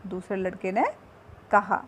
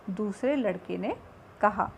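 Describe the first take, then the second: No difference in how they are said.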